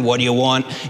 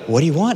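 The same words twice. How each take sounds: First: It sounds grumpy and irritated, like early morning. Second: It sounds friendly and eager to help.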